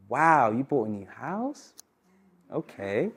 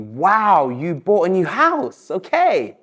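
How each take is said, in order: First: Soft, slow, sceptical wow fading to a flat okay; doubtful, unconvinced, trailing off quietly; unimpressed wow. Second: Bright, interested wow, slow on the house; impressed wow. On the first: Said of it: "Or I could say". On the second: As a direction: sound genuinely impressed by the new house. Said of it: "So I could say to you". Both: Shown as a demonstration.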